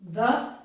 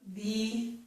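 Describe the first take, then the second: First: The vowel is a short 'uh' sound. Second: The vowel is a long 'ee' sound. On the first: "as in but" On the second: "as in see"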